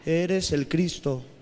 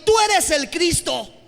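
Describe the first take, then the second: First: It is said flatly, without emotion. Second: It is said with excitement and admiration.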